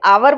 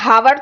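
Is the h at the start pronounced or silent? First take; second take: silent; pronounced. First: The word starts with a vowel sound. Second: The word starts with an h sound. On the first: The speaker calls it right. "इसे आवर बोलते हैं" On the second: The speaker calls it wrong. "हावर तो नहीं बोलते"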